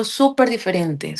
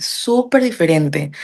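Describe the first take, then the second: First: Said in the usual way. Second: Súper diferente drawn out slowly, stress on súper; slow emphatic repeat. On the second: Shown as a demonstration. Telling a friend how strange accents sounded, slow stress on súper diferente.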